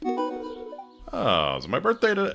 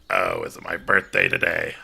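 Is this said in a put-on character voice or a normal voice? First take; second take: normal voice; character voice. First: It is said in the speaker's own normal voice. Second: It is said in a put-on female character voice. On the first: The speaker calls it wrong. "I forgot to do her voice" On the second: The speaker calls it right. "do her voice"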